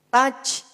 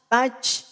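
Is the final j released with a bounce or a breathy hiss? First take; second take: breathy hiss; breathy hiss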